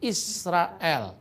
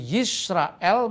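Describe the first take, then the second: First: The name begins with an 'ee' vowel. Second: The name begins with a 'y' consonant. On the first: This is the East Syrian Aramaic form. "di Syria Timur dipakai dialek Shema Israel, bukan Yisrael" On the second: This is the Hebrew form. "Shema Yisrael dalam bahasa Ibrani"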